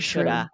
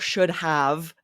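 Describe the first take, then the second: First: The words are reduced into one short form. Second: Both words are said fully and clearly. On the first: The speaker calls it right. "We'll say" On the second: The speaker calls it wrong. "we never say should've or, s- or, you know, should have"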